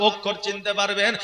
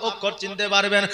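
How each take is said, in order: No difference in how they are said.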